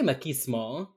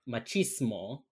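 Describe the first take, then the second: First: The middle consonant is a k sound. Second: The middle consonant is a ch sound. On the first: "I do a K for that" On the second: "He does the ch"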